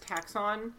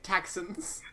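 First: The stress is on the second syllable. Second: The stress is on the first syllable. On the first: "I'm pretty sure it's Taxon" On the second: "I do like the stress on the first syllable, making it Taxons"

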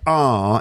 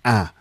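First: The vowel is a long, open ah. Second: The vowel is a short, flat a. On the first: "where I say ah in some words" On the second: "Carl would say ah"

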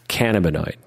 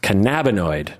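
First: The start sounds like the word 'cannabis'. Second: The start does not sound like 'cannabis'. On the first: The speaker calls it wrong. "not cannabinoid" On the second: The speaker calls it right. "apparently it's pronounced cannabinoid"

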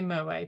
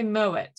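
First: The final t is left silent. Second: The final t is clearly pronounced. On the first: The speaker calls it wrong. "You're not supposed to say moet" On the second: The speaker calls it right. "you're supposed to say moet"

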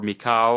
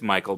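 First: The name is said with a Polish accent. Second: The name is said with an English accent.

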